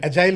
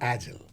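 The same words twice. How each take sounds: First: It is said with a British pronunciation. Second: It is said with an American pronunciation. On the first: "agile is the British pronunciation" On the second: "not agile"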